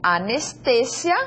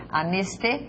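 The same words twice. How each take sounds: First: Anestesia slowly, stressed on TE, rising at the end; Spanish stress. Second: Anestesia broken before a long, stressed ZI; Portuguese stress. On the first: Teacher reads Anestesia as Spanish for learners, stress on TE. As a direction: say Anestesia as a-nes-TE-sia. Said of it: "anestesia y en portugués anestesia". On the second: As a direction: say Anestesia as a-nes-te... ZI-a. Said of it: "Essa é a ideia que nós temos aqui na língua portuguesa". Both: Shown as a demonstration.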